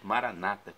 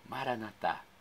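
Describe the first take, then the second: First: The stress is on the second-to-last syllable. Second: The stress is on the last syllable. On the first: This is how Protestants say it. "com a tônica na penúltima sílaba" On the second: This is how Catholics say it. "Tônica na última sílaba, como dizemos nós católicos"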